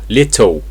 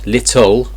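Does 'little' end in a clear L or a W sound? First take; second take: W sound; clear L. First: The final sound is a W-like vowel. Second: The final sound is a clear L. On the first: The speaker calls it right. "it's oh, little ... So it's a W sound" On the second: The speaker calls it wrong. "So it's not little, ul"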